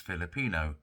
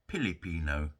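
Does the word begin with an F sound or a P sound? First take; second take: F sound; P sound. First: The word begins with an F sound. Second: The word begins with a P sound.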